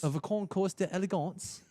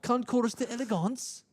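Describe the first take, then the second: First: It is said in his normal voice. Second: It is said in a put-on California accent.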